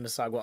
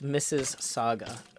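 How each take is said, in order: First: The name is said like 'Mississauga'. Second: The name is said like 'Missus Saga'. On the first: The speaker calls it wrong. "I'm not pronouncing it correctly" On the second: The speaker calls it right. "It's pronounced Missus Saga"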